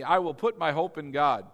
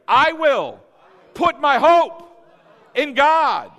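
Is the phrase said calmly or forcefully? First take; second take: calmly; forcefully. First: It is said in a plain, even voice. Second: It is said loudly with strong energy. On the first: "Say it with me" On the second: "Now let's say it like we mean it"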